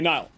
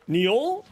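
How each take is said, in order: First: The vowel sounds like 'i' in 'mile'. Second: The vowel sounds like 'ee' in 'feel'. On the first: The speaker calls it right. "My apologies" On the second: The speaker calls it wrong. "their the pronunciation for their name is Neil"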